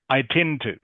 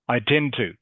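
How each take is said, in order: The two takes are said the same way.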